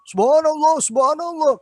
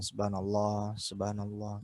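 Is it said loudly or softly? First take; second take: loudly; softly. First: It is said loudly and sharply. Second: It is said softly and quietly.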